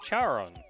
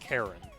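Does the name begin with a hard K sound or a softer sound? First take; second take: softer sound; hard K. First: The name begins with a soft, non-K sound. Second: The name begins with a hard K sound. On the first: The speaker calls it wrong. "which you look at and you think, okay, it's Charon" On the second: The speaker calls it right. "it is pronounced Charon"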